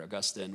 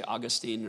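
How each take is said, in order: First: Augustine as uh-GUS-tin, stress in the middle; second-syllable stress. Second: Put-on Augustine as AW-gus-teen, stress up front; first-syllable stress. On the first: Offering guest the other option, Augustine as uh-GUS-tin. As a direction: say Augustine with a short, weak "tin" ending. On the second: Host asking guest which way to say it, Augustine as AW-gus-teen. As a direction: say Augustine ending in a long "teen". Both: Shown as a demonstration. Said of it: "do you say Augustine or Augustine".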